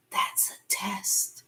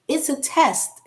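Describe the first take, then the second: First: Hushed whisper; secretive whispered hint; whispered aside. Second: Louder, higher insistence; emphatic, pressing the point; emphatic repeat. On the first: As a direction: lean in and whisper it. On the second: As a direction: say it out plainly and firmly. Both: Real, not acted.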